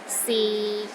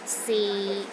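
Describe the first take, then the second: First: The pitch stays low and level. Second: The pitch stays low and level.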